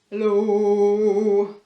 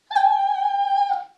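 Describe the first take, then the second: First: It is said in a very low voice. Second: It is said in a very high voice.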